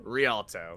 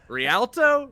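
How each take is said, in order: First: Rialto said as ree-AHL-toe, settled and falling; corrected pronunciation. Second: Rialto said as ree-AL-toe, rising like a question; unsure pronunciation. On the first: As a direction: Rialto with an open ah, said firmly. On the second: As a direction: try Rialto with a flat a, asking. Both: Shown as a demonstration. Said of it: "Sure, close".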